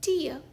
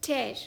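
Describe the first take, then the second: First: टीयर rhymes with fear; टीयर, long ee; tear as TEER. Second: टेयर rhymes with care; टेयर, open ai; tear as TAIR. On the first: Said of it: "इस शब्द का एक उच्चारण है". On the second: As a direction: say टेयर like tearing a dress. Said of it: "इस शब्द का दूसरा उच्चारण है ये". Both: Shown as a demonstration.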